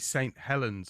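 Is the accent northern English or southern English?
southern. It is said with a southern English accent. The speaker calls it wrong. "I won't say Saint Helens"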